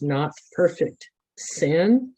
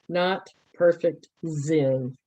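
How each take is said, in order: First: The last word sounds like 'sin'. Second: The last word is said clearly as 'Zen'. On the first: The speaker calls it wrong. "it probably came across as not perfect sin, as S I N" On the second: The speaker calls it right. "I'm trying to pronounce it a little bit better"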